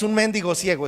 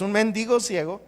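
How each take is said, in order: First: "mendigo" as MÉN-digo, stressed on the first syllable; stress placement contrast. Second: "mendigo" as men-DI-go, stressed on the middle syllable; stress placement contrast. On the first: Preacher correcting his reading, "mendigo" stressed on MEN. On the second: Preacher giving the word for beggar, "mendigo" stressed on DI. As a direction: say "mendigo" with the beat on DI. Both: Shown as a demonstration. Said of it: "¿Saben cuál es la diferencia entre mendigo y mendigo?".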